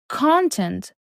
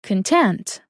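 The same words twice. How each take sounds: First: "Content" stressed on the first syllable, CON-tent; noun stress. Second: "content" stressed on the second syllable, con-TENT; adjective stress. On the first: Teacher showing learners the noun, "Content" as CON-tent. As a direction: say "Content" as KON-tent with the weight up front. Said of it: "If the asterisk is on the first syllable". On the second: Teacher showing learners the adjective, "content" as con-TENT. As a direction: say "content" as kun-TENT, first syllable weak. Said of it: "But if you say content, which is an adjective". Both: Shown as a demonstration.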